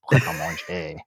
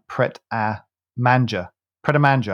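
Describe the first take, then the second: First: Low, lingering French "Manger", mon-ZHAY; French, like you love it. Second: "Manger" said as English MAN-juh; mispronounced French name. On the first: Shown as a demonstration. Coaching colleague to love the name, French mon-ZHAY on "Manger". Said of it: "say it like you mean it". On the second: Retold or imitated. Retelling colleague's newscast slip, "Manger" anglicised to MAN-juh. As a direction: imitate the wrong reading, "Manger" rhyming with "danger"-style J ending. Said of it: "I think she called it".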